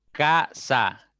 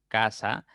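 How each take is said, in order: First: "Casa" split into ca - sa, louder and higher; syllable by syllable. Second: Said in the usual way. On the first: Shown as a demonstration. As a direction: break "Casa" into two lifted beats, ca, sa. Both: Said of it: "ya tienen dos sílabas".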